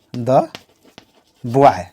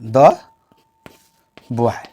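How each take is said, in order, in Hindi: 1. Article छोटे 'duh' स्वर के साथ बोला जाता है। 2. आर्टिकल छोटे 'duh' स्वर के साथ बोला जाता है।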